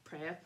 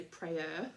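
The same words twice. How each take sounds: First: "prayer" with no R at the end; Australian dropped R. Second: "prayer" drawn out with a clear er ending; sounded final R. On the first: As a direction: say "prayer" Aussie-style, ending on an open vowel. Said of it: "we say prayer". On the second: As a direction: say "prayer" slowly, R pronounced at the end. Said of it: "we don't say prayer". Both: Shown as a demonstration.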